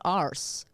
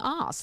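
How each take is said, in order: First: The word is said with an R sound. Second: The word is said without an R sound. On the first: "you don't have the Scottish accent, so I don't hear the R" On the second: "it sounds like you're saying arse"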